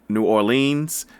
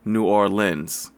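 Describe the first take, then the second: First: Orleans is not pronounced like 'or lens'. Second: Orleans is pronounced like 'or lens'. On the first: The speaker calls it wrong. "not New Orleans" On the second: The speaker calls it right. "or as in like a boat oar and lens as in camera lens"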